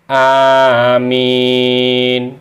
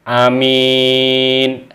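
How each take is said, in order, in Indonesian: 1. Vokal pertama dibaca panjang. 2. Vokal pertama dibaca pendek. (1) "hamzanya panjang, mimnya panjang, tidak ada tasdidnya" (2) "membaca pendek hamzahnya dan tidak mensyidahkan"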